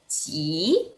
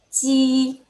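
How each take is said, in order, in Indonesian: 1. Diucapkan dengan nada ketiga. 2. Diucapkan dengan nada pertama. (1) "Nada tiga" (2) "nada satu"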